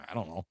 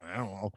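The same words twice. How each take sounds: First: Low, soft, unsure mumble; a baffled father muttering under his breath; mumbled low and soft; mumbled quiet aside. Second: Low, soft, unsure mumble; mumbled low and soft; mumbled quiet aside. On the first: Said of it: "My father goes". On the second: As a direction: Lou echoing the father, muttering under his breath. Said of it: "And Lou goes". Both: Retold or imitated.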